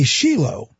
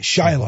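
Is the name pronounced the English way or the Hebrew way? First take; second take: Hebrew; English. First: The name is said with a Hebrew pronunciation. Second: The name is said with an English pronunciation. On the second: "that's the English way to say the word"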